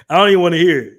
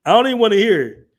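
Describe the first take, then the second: First: Louder, flat refusal to listen; loud dismissal. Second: Faster, higher repeat of the refusal; faster loud dismissal. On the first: Brushing off fans of UK rap, loud dismissal. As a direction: shut the whole thing down loudly. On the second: Doubling down to the chat, faster loud dismissal. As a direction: rattle it off again, still loud. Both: Real, not acted.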